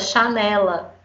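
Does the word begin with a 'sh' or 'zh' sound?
sh. It is said in a northern Portuguese accent with 'sh'.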